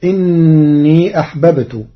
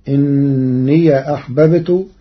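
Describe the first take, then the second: First: إني said innī, yā' with sukūn; إني with a still final yā'; Hafs reading. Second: إني said inniya, yā' with fatha; إني with an open final yā'; Warsh reading. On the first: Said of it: "قرأ ورش كلمة إني". (إني بإسكان الياء) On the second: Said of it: "بفتح ياء الإضافة". (إنيَ بفتح ياء الإضافة) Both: Shown as a demonstration.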